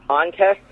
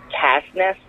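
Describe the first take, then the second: First: Said in the usual way. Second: "Cast Nest" said as two words, cast plus nest; botched word. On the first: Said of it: "he was supposed to say". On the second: Retold or imitated. Quoting a wrestler's slip, "Cast Nest" mispronounced as two words. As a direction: garble "contest" into "Cast Nest". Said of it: "Instead, what comes out of is".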